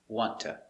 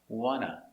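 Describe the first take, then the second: First: It is run together with a t sound. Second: It is run together with no t sound. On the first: "it's pronounced t. Link the sounds. Make it like one word" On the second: "the T is muted"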